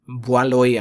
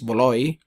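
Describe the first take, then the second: First: The name begins with a 'bwa' sound. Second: The name begins with a 'bo' sound. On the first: This follows how the name is written. The speaker calls it wrong. "ang nakalagay" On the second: This is how the name is actually said. The speaker calls it right. "ang pronunciation is Boloy"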